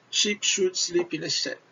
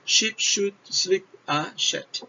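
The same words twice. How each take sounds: First: Said in the usual way. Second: Tongue twister. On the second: Shown as a demonstration. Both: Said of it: "só o som do S. Olha lá".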